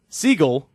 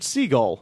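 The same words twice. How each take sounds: First: Siegel said the way the name can go; alternate pronunciation. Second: Siegel as the radio newsman says it; newsman's own pronunciation. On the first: Shown as a demonstration. Podcaster demonstrates another way to say the name, alternate pronunciation of Siegel. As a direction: say Siegel as the other possible pronunciation. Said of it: "there's a way to pronounce that name".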